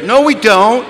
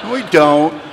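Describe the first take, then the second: First: High, loud rising denial; mock-indignant rebuttal; loud contradiction. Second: Contradiction. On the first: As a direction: blurt out the denial, pitched high. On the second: Acted. Same denial repeated lower.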